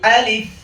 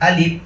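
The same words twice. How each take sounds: First: The word ends with a held f sound. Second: The word ends with a p sound. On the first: The speaker calls it right. "ফায়ে ধরে রাখতে হবে" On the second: The speaker calls it wrong. "অনেকে আমরা শেষে প দিয়ে বলি আলিফ, এটাও ভুল"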